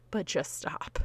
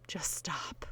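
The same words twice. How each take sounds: First: Said in the usual way. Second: Soft, much quieter whispered plea; whispered just stop. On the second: Real, not acted. Host pleading with well-meaning askers, whispered. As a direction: drop to a hush and plead. Begging nosy relatives to stop.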